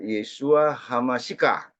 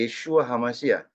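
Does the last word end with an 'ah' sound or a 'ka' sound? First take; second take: ka sound; ah sound. First: The last word ends with a 'ka' sound. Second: The last word ends with an 'ah' sound. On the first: The speaker calls it wrong. "Jangan bacanya uh, Yeshua Hamasika" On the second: The speaker calls it right. "Sama dengan ini"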